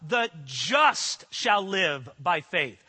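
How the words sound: The stress is on the word just.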